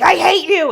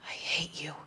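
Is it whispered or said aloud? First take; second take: aloud; whispered. First: It is said aloud in full voice. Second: It is whispered under the breath.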